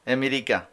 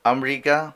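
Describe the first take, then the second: First: Said in the usual way. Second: আমেরিকা said amrika, opening a, middle vowel dropped; আমেরিকা the Arabic way, amrika; Arabic pronunciation. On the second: Shown as a demonstration. Teacher gives the Arabic pronunciation of আমেরিকা as amrika. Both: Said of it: "আরবিরা যেভাবে বলে ওভাবেই".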